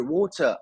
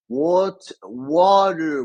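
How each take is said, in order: First: British "water", no final r; higher-pitched British "water", caught out; British accent slip. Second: Halting American "water" with a strong r; careful American "water" after a stumble; attempted American accent. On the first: Retold or imitated. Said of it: "Oh, sh-, they got me". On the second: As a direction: force out "water" in an American accent, high and loud. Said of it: "my American accent".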